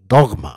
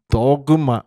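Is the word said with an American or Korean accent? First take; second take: American; Korean. First: The word is said with an American accent. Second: The word is said with a Korean accent. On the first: "미국식 하면 dogma" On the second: "우리 한국식 발음은 도그마죠"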